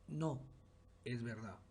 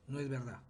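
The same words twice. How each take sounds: First: There is a pause after 'no'. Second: There is no pause after 'no'.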